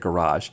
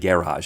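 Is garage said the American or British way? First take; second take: American; British. First: It is said with an American pronunciation. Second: It is said with a British pronunciation. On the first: The speaker sounds like an ordinary American. The speaker calls it right. "instead of garage" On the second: The speaker sounds like they are putting on airs. The speaker calls it wrong. "it does sound like I'm saying garage"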